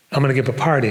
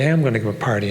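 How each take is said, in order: First: Said in the usual way. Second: "am" said in full and stressed. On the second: Shown as a demonstration. Speaker telling audience it's not just a story, stress on "am". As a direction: lean on "am" to insist it is true.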